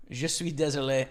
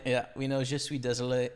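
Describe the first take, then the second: First: English-accented French apology; foreign accent in french. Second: Said in the usual way. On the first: Shown as a demonstration. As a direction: say it like a learner of French. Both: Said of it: "Had to use that pretty often".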